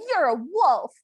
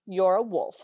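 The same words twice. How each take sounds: First: Loud, emphatic accusation; mock yell. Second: Calm, matter-of-fact correction; a measured, composed quote; calm statement. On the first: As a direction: imitate a yelled accusation. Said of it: "and yells". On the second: Retold or imitated. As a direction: state it evenly, without alarm. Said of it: "She states rather calmly".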